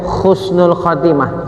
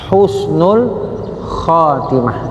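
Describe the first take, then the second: First: The first word begins with a rough kh sound. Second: The first word begins with a breathy h sound. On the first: It means ending with disgrace. The speaker calls it wrong. "ada yang pakai ka" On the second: It means ending with goodness. The speaker calls it right. "yang tepat tidak pakai kaha secara Latin, tapi ha"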